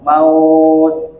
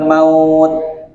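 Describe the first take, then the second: First: The final t is released with a puff of breath. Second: The final t is released without a puff of breath. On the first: The speaker calls it right. "huruf taknya dibaca itu ada napas yang keluar" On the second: The speaker calls it wrong.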